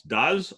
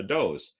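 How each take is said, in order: First: "does" as DUZ, rhyming with "buzz"; verb pronunciation. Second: "does" as DOHZ, rhyming with "rose"; female-deer pronunciation. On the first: Lecturer quizzing on the verb to do, "does" as DUZ. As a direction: say "does" as the form of "do". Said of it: "the verb to do". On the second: Lecturer offering the female deer, "does" as DOHZ. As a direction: say "does" with a long O, like several deer. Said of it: "or is it female deer?". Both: Shown as a demonstration.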